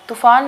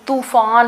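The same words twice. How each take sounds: First: The 'u' vowel is said short. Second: The 'u' vowel is said long. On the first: The speaker calls it wrong. "तूफान नहीं" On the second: The speaker calls it right. "तूफान होता है, यानी कि त के ऊपर जो है वो बड़ा ऊ की मात्रा आती है"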